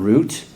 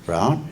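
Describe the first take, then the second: First: The vowel sounds like the one in 'boot'. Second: The vowel sounds like the one in 'out'. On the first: "It's not root" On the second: "It's not root"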